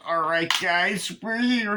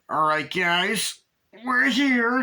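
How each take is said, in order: First: Slow, high imitated dude voice, rising on here; hammed-up impression of the character arriving; announcing arrival. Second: Slow, drawn-out high put-on dude voice; mock dude-bro announcement, slow and high; announcing arrival. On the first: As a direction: drag out guys like a goofy friend. Same line imitated again. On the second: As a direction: stretch it out like a goofy guy arriving. Retelling guy announcing arrival.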